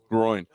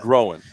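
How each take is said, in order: First: The word is said with one syllable. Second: The word is said with two syllables. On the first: The speaker calls it right. "No, it is a groin" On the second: The speaker calls it wrong. "some people pronounce it"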